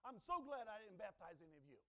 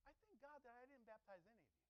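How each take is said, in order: First: Louder, pleased, "so" leaned on; smug relief. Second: Quiet reread. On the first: Retold or imitated. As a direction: sound openly relieved and a bit smug. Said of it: "with this type of mindset that you have". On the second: Shown as a demonstration. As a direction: let the words sink in softly. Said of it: "Did you hear what he just said?".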